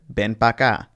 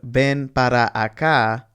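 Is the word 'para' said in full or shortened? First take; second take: shortened; full. First: The word para is shortened to pa. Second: The word para is said with both syllables. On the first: "you may just hear" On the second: "instead of"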